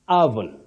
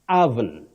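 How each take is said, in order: First: The first vowel is an 'uh' sound. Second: The first vowel is an 'uh' sound.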